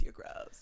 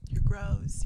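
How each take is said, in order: First: Whispered. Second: Said in the usual way. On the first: Real, not acted. Teasing her co-host in a whisper. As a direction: whisper the words with no voice. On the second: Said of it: "that's really disgusting".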